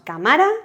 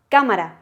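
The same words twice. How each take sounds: First: The stress is on the second syllable. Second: The stress is on the first syllable. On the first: The speaker calls it wrong. "ni decimos" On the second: The speaker calls it right. "el golpe de voz, ¿dónde lo vamos a dar? En K, porque decimos cámara"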